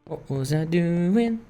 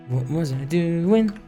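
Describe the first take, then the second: No difference in how they are said.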